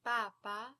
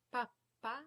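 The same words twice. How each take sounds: First: Papa with one short middle p; single consonant. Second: Pappa with the middle p held; double consonant. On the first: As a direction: say papa with long first a, quick p. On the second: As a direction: stop briefly on the pp in pappa. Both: Shown as a demonstration. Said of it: "you pronounce that consonant longer".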